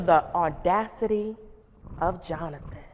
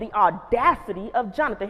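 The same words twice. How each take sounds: First: The tone is impressed and admiring. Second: The tone is offended and indignant. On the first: The other person showed admirable courage. "my tone of voice changed" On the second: The other person overstepped by giving orders. "I went from the audacity of Jonathan, he gonna tell me to sit down"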